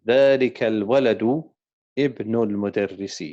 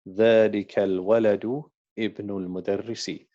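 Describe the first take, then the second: No difference in how they are said.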